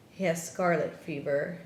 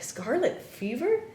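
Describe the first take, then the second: First: Said in the usual way. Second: Retold disbelief, higher pitch; incredulous question. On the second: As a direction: echo the diagnosis as a baffled, high question. Shocked reply to the diagnosis.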